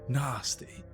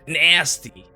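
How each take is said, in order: First: It is said in a British accent. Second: It is said in an American accent.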